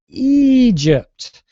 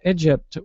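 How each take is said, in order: First: The first vowel is a long e sound. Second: The first vowel is a short e sound. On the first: The speaker calls it right. "we pronounce your country with a longer e sound" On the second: The speaker calls it wrong. "We don't say Egypt"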